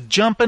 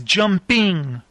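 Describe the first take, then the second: First: The ending is said 'in' without the g. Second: The ending is said fully as 'ing'. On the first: The speaker calls it wrong. "my dad hated when you wouldn't say I-N-G" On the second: The speaker calls it right. "my dad would go, it's jumping"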